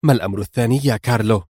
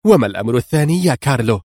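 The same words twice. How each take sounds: First: Quick, stern interruption; sudden sternness. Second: Quick, impatient, strict repeat question; edgy sternness. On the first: Donna interrupts Carlo's report, suddenly stern. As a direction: cut in with a fast, strict question. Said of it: "قاطعته بصرامة مفاجئة". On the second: Donna cuts Carlo off, nervously stern. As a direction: press for the answer, fast and stern. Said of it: "قاطعته بصرامة عصبية". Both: A narrator's reading.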